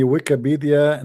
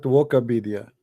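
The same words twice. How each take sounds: First: Said in the usual way. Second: "Wokopedia" with "woko" in place of "wiki"; mispronounced word. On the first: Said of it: "Somebody is saying to me". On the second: Retold or imitated. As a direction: say "Wokopedia", the botched form of Wikipedia. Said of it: "not Wokopedia".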